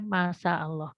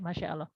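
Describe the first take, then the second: First: The middle consonant is a plain s sound. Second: The middle consonant is an sh sound. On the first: The speaker calls it wrong. "Jangan sampai mengatakan masa Allah" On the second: The speaker calls it right. "harus betul masya dengan shin ya"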